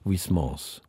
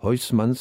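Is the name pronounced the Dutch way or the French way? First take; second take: French; Dutch. First: The name is pronounced with French sounds. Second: The name is pronounced with Dutch sounds. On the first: "oder im Französischen" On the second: "also holländisch"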